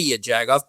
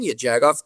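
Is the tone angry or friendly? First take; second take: angry; friendly. First: It is yelled angrily at another driver. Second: It is said warmly, as a happy greeting.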